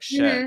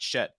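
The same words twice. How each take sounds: First: The pitch moves and wavers slightly on the word. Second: The pitch stays flat and straight on the word. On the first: The speaker calls it right. "having just a little bit of movement" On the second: The speaker calls it wrong. "the intonation that they're using is so straight"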